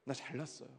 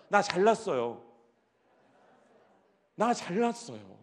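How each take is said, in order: First: Mock preening. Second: Model for group. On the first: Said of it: "머리도 이렇게 하면서". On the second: Shown as a demonstration. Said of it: "다 같이 한번 해봅시다".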